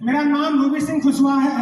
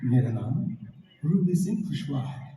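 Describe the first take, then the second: First: It is said loudly and high. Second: It is said softly and quietly. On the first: The speaker calls it wrong. "आवाज आपकी थोड़ी ऊंची जा रही है ... ऐसे जा रही है" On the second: The speaker calls it right. "अब आपको धीरे से बोलना है"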